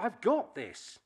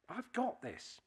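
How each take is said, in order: First: Said in the usual way. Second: "I've got this" said again much softer, almost under his breath; quiet repeat to himself. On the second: Retold or imitated. Reassuring himself on the ice, very quietly. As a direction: murmur it to yourself, convincing yourself.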